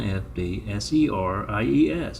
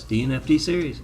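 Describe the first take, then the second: First: "F D S E R I E S" spelled out one letter at a time. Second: Said in the usual way. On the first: Shown as a demonstration.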